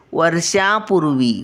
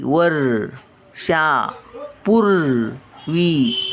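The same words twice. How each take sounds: First: Said in the usual way. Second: वर्षापूर्वी at a crawl, each syllable held; very slow syllable reading. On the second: Shown as a demonstration. Grandmother sounding out वर्षापूर्वी for children, very slowly. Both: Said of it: "word then slow repeat".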